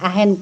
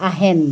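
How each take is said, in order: The two takes are said the same way.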